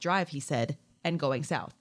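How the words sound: It is phrased as two separate titles.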